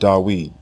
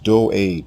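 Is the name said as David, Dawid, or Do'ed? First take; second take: Dawid; Do'ed. First: The name is said as Dawid. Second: The name is said as Do'ed. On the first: The speaker calls it wrong. "It is not Dawid" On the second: The speaker calls it right. "His name is pronounced Do'ed"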